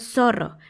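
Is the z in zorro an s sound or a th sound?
s sound. The z sounds like an s. "Ellos no dicen zorro"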